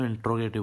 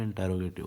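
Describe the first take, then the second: First: इंट्रोगेटिव said with the e dropped, in-tro-ga-tiv; quoting the common mispronunciation इंट्रोगेटिव; wrong pronunciation. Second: इंटेरोगेटिव with every syllable, in-te-ro-ga-tiv; correct pronunciation. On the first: Teacher showing students' wrong इंट्रोगेटिव. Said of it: "कुछ बच्चे इसको इंट्रोगेटिव बोलते हैं". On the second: Teacher gives students the right इंटेरोगेटिव. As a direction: carefully pronounce इंटेरोगेटिव in full. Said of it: "लेकिन ये इंटेरोगेटिव होता है". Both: Shown as a demonstration.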